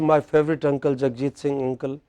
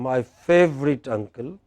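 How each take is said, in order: First: It runs on without a pause in the middle. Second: There is a pause after the first uncle. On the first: "The girl did not say" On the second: "Then she had a pause"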